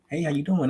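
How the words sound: The voice is low and monotone. The speaker sounds older. The speaker calls it right. "Now I'm talking all low and monotone to where I'm sounding older"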